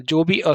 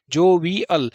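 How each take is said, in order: First: जोवियल as jo-vi-ul, last sound let go; lightly released ending. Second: जोवियल as jo-vee-AL, every part sounded; full "al" ending. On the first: Teacher correcting the ending, जोवियल with a light, loose "al". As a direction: run जोवियल together and barely release the final l. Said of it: "हल्का सा छोड़ना है". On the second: Teacher first spelling it out, जोवियल with a full AL ending. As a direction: give जोवियल three full parts ending in a clear "al". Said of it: "अब इसे अल नहीं पढ़ना है". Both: Shown as a demonstration.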